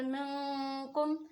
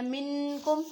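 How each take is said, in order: First: मिनकुम slow and louder, the ن hidden in the nose before क; slow nasal ikhfa on मिनकुम; ikhfa with nasal hold. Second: मिनकुम with the नून said clearly, no nasal hold; the wrong izhar way of saying मिनकुम; wrong clear reading. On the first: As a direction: stretch मिनकुम, hum the नून through the nose. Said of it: "आप मेरी आवाज़ पर गौर करें". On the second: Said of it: "मिन जब आप पढ़ेंगे तो ... इजहार हो जाएगा". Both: Shown as a demonstration.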